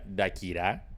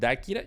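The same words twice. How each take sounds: First: The stress is on the last syllable. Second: The stress is on the first syllable. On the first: "Si fuera aguda, se llamaría" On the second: "si la pronunciación es Dakira, lleva tilde"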